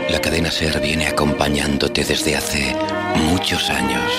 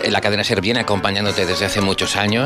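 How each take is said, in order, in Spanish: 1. Se dice con una voz impostada de locutor, afectada. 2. Se dice con una voz natural y sencilla, como al hablar normal. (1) "Voz impostada" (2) "Muy bien, así normal"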